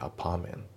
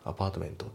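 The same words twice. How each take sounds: First: The t before the end is dropped. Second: The t before the end is clearly pronounced. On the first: The speaker calls it right. "Apartment のT が抜けますね" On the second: The speaker calls it wrong. "じゃなくて"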